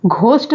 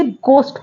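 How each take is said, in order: First: घोस्ट with an aspirated breathy gh, as in ghar; घोस्ट said the wrong way, with the h sounded after g; wrong pronunciation. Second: घोस्ट with a plain g and no h sound; correct pronunciation. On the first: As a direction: mispronounce घोस्ट with a voiced h. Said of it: "घोस्ट नहीं पढ़ते हैं". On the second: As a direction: model घोस्ट with the h dropped. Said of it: "इसे घोस्ट पढ़ते हैं". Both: Shown as a demonstration.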